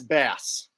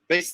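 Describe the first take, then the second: First: It is said like the fish word. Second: It is said like the instrument word. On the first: It names the fish. "Oh, and the fish, B A S S, but that's bass" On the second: It names the musical instrument. "Bass the instrument"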